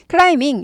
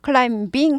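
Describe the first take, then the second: First: The b sound is silent in the word. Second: The b sound is pronounced in the word. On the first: The speaker calls it right. "climbing 이렇게 돼요. b가 아예 발음이 안 나는 거죠" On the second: The speaker calls it wrong. "climbing 하지 않고"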